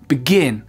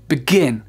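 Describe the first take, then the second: First: The second syllable is stressed, the first reduced. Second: The same.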